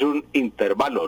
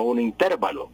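First: Said in the usual way. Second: "intervalo" stressed on TER; mistaken stress. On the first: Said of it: "Eso es un intervalo". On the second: Shown as a demonstration. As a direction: say "un intervalo" as un in-TÉR-va-lo. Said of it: "no un intervalo".

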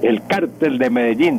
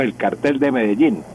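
First: "cártel" stressed on the first syllable, CAR-tel; Spain's stress pattern. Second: "cartel" stressed on the last syllable, car-TEL; Colombian stress pattern. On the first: Teacher quoting the usage in Spain, "cártel" stressed up front. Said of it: "en España decían el cártel de Medellín". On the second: Teacher recalling how Colombians said it, "cartel" stressed at the end. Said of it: "decíamos el cartel de Medellín". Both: Shown as a demonstration.

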